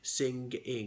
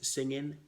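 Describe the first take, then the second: First: The ending has a distinct hard G. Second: The ending is clipped to an N sound. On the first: "nor do we pronounce the G distinctly as a, a G" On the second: "circumcise it as singing"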